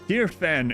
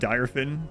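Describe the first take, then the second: First: The first syllable sounds like 'deer'. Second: The first syllable sounds like 'dire'. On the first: This is how the character in the game says it. "She pronounces it Deerfin" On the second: This is the pronunciation one might have expected. "instead of Direfin"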